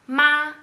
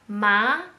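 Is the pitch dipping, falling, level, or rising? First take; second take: level; rising. First: The pitch stays high and level. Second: The pitch rises from mid to high. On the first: "c'est les quatre dents différents" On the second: "c'est les quatre dents différents"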